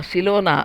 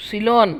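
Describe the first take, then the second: First: సిలోనా with a long final -aa; సిలోనా said as the mother-in-law's slip; wrong name. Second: సిలోన్ clipped at the final n; సిలోన్ ending sharply on n, no vowel after; correct name. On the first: Correcting the mother-in-law's slip సిలోనా, ending in -naa. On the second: Daughter-in-law correcting the name to సిలోన్, ending on n. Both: Shown as a demonstration. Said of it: "సిలోనా కాదు, సిలోన్".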